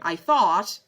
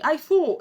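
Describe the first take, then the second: First: The final T is clearly pronounced. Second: The final T is left off. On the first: "you can always say the American version" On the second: "they cut the last T"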